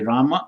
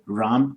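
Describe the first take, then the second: First: The name ends with a full final vowel. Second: The final vowel is dropped after the m. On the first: This is the South Indian and Sanskrit form. "South Indians will say Rama" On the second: This is the North Indian, Hindi-belt form. "North Indians will say Ram"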